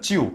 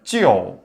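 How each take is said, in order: First: The vowel is placed forward, like a plain 'iu'. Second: The vowel is pulled back, sounding like 'ieo'. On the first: The speaker calls it wrong. "찌우는 앞으로 발음 나오죠" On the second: The speaker calls it right. "속으로 집어넣으면 찌어"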